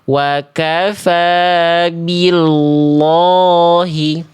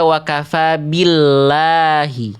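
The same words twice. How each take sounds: First: The l sound in billahi is thick and dark. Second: The l sound in billahi is thin and light. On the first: The speaker calls it wrong. "kenapa nggak dibaca wakafa billahi?" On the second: The speaker calls it right. "didahului kasroh, tipiskan lamnya"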